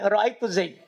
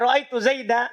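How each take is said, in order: First: The last word ends on a bare consonant. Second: The last word ends in a long vowel. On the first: This is how one tribe stops on it. "mereka bilang ra'aitu Zaid" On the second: This is how most Arabs stop on it. "pakai alif kalau waqaf"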